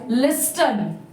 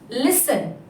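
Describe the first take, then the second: First: The T sound in the middle is pronounced. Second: The T sound in the middle is left out. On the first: The speaker calls it wrong. "They read this word as listen because here T is there" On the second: The speaker calls it right. "the T later is silent here. So the pronunciation of this word is listen"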